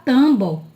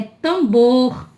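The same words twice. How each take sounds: First: TAMBO ending on a bare O, no R; dropped final R. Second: TAMBOR with the last R sounded; correct final R. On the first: Teacher showing the word without its R, final R dropped. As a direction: say "tambo" with the last R left off. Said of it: "Se não tivesse o R". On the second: Teacher correcting tambo to tambor, final R sounded. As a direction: stretch "tambor" to "tam-BOR", ending on R. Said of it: "é tambor". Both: Shown as a demonstration.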